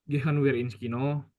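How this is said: The voice stays flat, like a statement.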